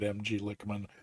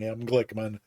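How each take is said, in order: First: G is said as a separate letter before Lickman. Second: G is joined into the name Glickman. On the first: The speaker calls it wrong. "consistently pronounces it M G Lickman" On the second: The speaker calls it right. "you've been doing it right all along"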